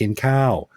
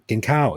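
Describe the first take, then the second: First: The phrase is said at a normal, unhurried pace. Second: The phrase is said very quickly.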